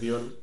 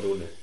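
First: The name is said like 'Diun', with an 'iu' glide. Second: The name is said plainly, without the 'iu' glide.

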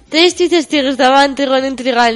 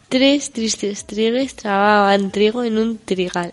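First: It is said fast. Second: It is said at normal speed.

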